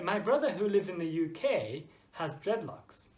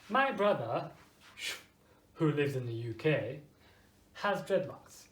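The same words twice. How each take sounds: First: The middle clause keeps the same pitch. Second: The middle clause drops to a lower pitch. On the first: The clause is important information. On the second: The clause is only extra information.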